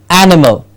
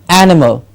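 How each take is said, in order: No difference in how they are said.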